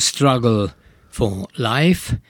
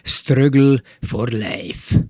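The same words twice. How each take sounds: First: The phrase is said with an English pronunciation. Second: The phrase is said with a Hungarian-style pronunciation. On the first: This is how it is said in English. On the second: This is how older Hungarians used to say it. "én hallottam úgy mondani, művelt idősebb embertől"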